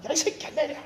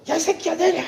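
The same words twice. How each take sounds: First: High but held-back mock yell; repeated yell. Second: High, sharp mock yell at the taxi driver; retold angry yell. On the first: Pastor repeating his shout to the congregation, softer mock yell. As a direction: replay the yell with less force. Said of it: "이랬다". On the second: Pastor reenacting yelling at a taxi, mock angry shout. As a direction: bark it like a road-rage driver. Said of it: "제가 어떻게 했겠어요?".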